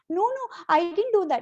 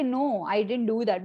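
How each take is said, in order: First: The voice is nervous with changing pitch. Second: The voice is calm and steady.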